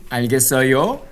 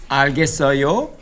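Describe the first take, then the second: The two takes are said the same way.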